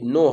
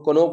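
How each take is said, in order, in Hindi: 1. यह शब्द n ध्वनि से शुरू होता है। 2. यह शब्द k ध्वनि से शुरू होता है। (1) "ये नो है" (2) "बहुत जन इसको कोनो पढ़ता है, तो कोनो नहीं है"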